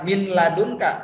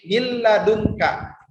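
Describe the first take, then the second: First: The n sound is pronounced before the l. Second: The n sound merges into a doubled l. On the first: The speaker calls it wrong. "bukan min ladunka" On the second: The speaker calls it right. "tapi milladunka"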